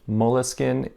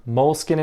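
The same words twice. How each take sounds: First: Moleskin as three syllables, "mo-luh-skin"; drawn-out moleskin with an added middle "uh"; French pronunciation. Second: Moleskin as two syllables, "mole-skin"; no vowel between l and s in Moleskin; English pronunciation. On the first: Summing up for viewers, moleskin said "mo-luh-skin". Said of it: "in French". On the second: Summing up for viewers, Moleskin said "mole-skin". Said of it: "in English". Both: Shown as a demonstration.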